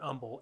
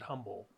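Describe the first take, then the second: First: The word starts without any H sound. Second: The word starts with an audible H sound.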